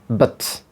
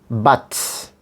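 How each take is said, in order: First: The vowel is a very short, reduced schwa. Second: The vowel is a full, open 'uh' sound. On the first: "And in the weak form, the sound would be but" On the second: "the word but in a strong form, this will be pronounced but"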